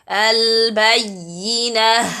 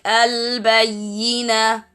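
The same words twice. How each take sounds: First: The final h sound is clearly audible. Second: The final h sound is dropped and inaudible. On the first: The speaker calls it right. "Ha sound is clear" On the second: The speaker calls it wrong. "When I stop, the ha sound disappeared"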